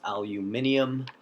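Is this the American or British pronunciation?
British. It is said with a British pronunciation.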